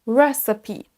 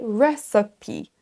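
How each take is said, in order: Both takes have the same delivery.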